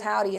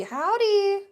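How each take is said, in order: First: Said in the usual way. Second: Howdy sung up high; cheerful high-pitched howdy; sing-song howdy. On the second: Acted. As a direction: greet them with a high, stretched Howdy.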